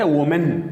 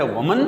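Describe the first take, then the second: First: وومن as "wo-men"; "men" ending on وومن for many; plural women. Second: وومن as "wuh-mun"; weak vowels in وومن for one; short "mun" ending on وومن; singular woman. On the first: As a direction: clear e at the end of وومن. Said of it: "زیادہ کہلاتا ہے". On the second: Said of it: "ایک کہلاتا ہے". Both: Shown as a demonstration.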